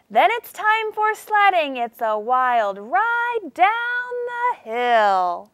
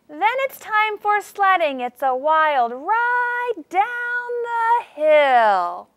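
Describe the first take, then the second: First: High on sledding, then coast slowly down to the hill; high launch then slow glide down the hill. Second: High start sliding into a slow downhill swoop; voice up then down. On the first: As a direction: let the sentence sled down. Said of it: "My voice sounded like I was sledding down a hill". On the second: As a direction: start high on sledding, then ride slowly down the hill. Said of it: "how I made my voice go up and then down". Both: Shown as a demonstration.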